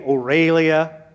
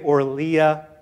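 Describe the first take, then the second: First: An 'e' vowel follows the R sound. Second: No vowel follows the R sound. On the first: "Some people say" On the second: "Some people say"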